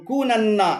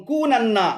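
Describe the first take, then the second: No difference in how they are said.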